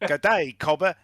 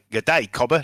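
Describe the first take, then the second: First: Higher-pitched second stab at Australian; mock Australian accent. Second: Mock Australian accent, wobbling off course; slipping Australian accent. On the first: Game master retries the greeting, in higher mock Australian accent. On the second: Mercenary greets a neighbour, in a slipping Australian accent. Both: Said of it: "Lost my accent there a minute".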